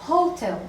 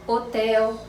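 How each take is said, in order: First: Hotel with a sounded English h; Hotel in English, h aspirated; English pronunciation. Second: Hotel with a silent h, open e; Hotel in Portuguese, otɛl; Portuguese pronunciation. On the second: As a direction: say Hotel the Brazilian way, no h. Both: Shown as a demonstration. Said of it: "só vão pronunciar diferente".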